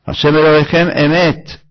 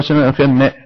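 First: The last word starts with its own vowel onset. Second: The last word's vowel onset is swallowed. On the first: The text says God is true. The speaker calls it right. "ולא השם אלוהיכם מת" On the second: It sounds like saying God is dead. The speaker calls it wrong. "בולע את האלף"

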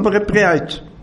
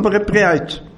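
First: The h sound before 'etz' is swallowed. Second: The same.

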